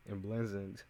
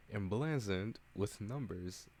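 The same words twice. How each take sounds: First: Emblazoned tried with a laugh; half-laughed "emblazoned"; stumbling new word. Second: "emblazoned" said slowly and deliberately; careful "emblazoned"; careful new word. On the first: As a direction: laugh through a first try at "emblazoned". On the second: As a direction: nail "emblazoned" carefully, syllable by syllable. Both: Real, not acted. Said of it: "We learned a new word today".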